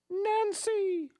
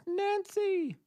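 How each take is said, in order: First: High, drawn-out goddess call; Mother Nature voice. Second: Very high, drawn-out goddess call; Mother Nature voice. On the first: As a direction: call the name like a lofty goddess. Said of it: "What would Mother Nature's voice sound like?". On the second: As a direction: call her name like a goddess from above. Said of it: "or would it sound more like that?". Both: Pretend.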